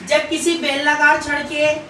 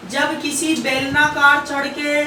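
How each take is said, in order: First: Said in the usual way. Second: Slow dictation. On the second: Shown as a demonstration. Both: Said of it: "लिखो सभी बच्चे".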